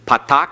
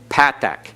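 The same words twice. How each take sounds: First: It is said with modern Hebrew pronunciation. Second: It is said with classical Hebrew pronunciation. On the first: This is the form heard in modern usage. The speaker calls it wrong. "Patak is what you'll hear on the internet" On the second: This is the traditional form for the old texts. The speaker calls it right. "If you keep the classical pronunciation"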